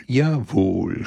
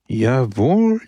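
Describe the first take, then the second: First: Said in the usual way. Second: „Jawohl“ said firmly, a bit louder with a rising end; the bishop agrees emphatically, pitch rising. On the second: A narrator's reading. The old bishop closing the matter, firm rising jawohl. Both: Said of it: "schloss der alte Bischof".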